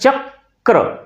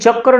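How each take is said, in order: First: The k sound is said twice. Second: The k sound is said once. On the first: The speaker calls it right. "बोलते चक्र, क का उच्चारण दो बार हो जाता है" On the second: The speaker calls it wrong. "लेकिन चक्र नहीं बोल के"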